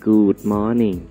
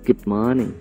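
First: The vowel in good is long, like oo. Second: The vowel in good is short and central. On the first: The speaker calls it wrong. "อันนี้เป็นสระอูเสียงยาวนะครับ" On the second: The speaker calls it right. "นี่คือเสียงสระอึนะครับซึ่งถูกต้องครับเสียงสั้น"

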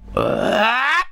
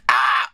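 First: The scream grows gradually and continuously louder. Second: The scream starts suddenly at full loudness.

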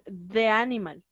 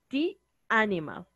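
First: 'The' is said with a short 'uh' vowel. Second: 'The' is said with a long 'ee' vowel. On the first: The speaker calls it wrong. "No voy a decir the animal. El de no existe" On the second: The speaker calls it right. "Yo voy a decir the animal"

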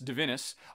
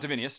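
First: The name ends directly in '-inus' without extra vowel. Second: The name has an extra 'ee' sound before '-us'. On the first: The speaker calls it right. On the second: The speaker calls it wrong. "not Divinius"

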